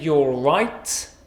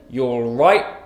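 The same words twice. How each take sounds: First: The T in 'alright' is fully pronounced. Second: The T in 'alright' is a glottal stop. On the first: The speaker calls it wrong. "we don't say you're right" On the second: The speaker calls it right. "we use a glottal stop"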